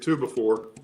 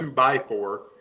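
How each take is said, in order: First: The middle word is reduced, sounding like 'be'. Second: The middle word is said fully as 'by'. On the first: The speaker calls it right. "to me, it's it's it's a two before" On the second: The speaker calls it wrong. "It's not a two by four"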